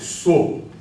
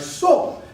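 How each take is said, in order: First: The word is said on a low tone. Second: The word is said on a high tone. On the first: It means horse. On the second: It means a dwelling, a place where someone lives.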